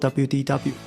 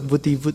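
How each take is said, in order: First: The letters are read with English letter names. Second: The letters are read with Italian letter names. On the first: "大家更直接说 W D W" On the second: "念法也不是英文，而是 V D V"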